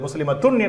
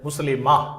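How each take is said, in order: First: The word ends with an added 'tun' syllable. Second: The word ends on a plain 'a' sound. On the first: The speaker calls it wrong. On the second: The speaker calls it right.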